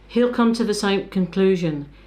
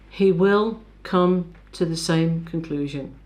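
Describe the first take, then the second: First: He will is contracted to he'll. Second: He will is said in full. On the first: The speaker calls it wrong. "these are contractions" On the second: The speaker calls it right. "use the full form"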